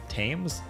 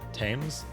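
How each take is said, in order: No difference in how they are said.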